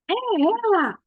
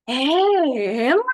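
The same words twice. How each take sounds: First: It is said as an exclamation, not asking. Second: It is said as an astonished, exclaiming question. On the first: The speaker has found the person. "Se eu for só exclamar" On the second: The speaker cannot believe it is her. "Eu vou perguntar e exclamar ao mesmo tempo"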